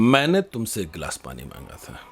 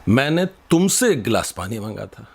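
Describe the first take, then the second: First: The word मैंने carries the strongest stress. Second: The word तुमसे carries the strongest stress. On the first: I asked, not someone else. "अगर हमने मैंने पर जोर दे दिया" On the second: I asked you, not someone else. "तो तुमसे मांगा था"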